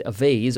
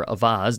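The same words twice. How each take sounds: First: "vase" with a long AY, like "vayz"; "vase" pronounced VAYZ, long A; alternate pronunciation. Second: "vase" with an open AH, like "vahz"; "vase" pronounced VAHZ, broad A; alternate pronunciation. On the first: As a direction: say "vase" to rhyme with "days". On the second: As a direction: say "vase" with the vowel of "spa". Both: Shown as a demonstration. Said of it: "depending on how you pronounce it".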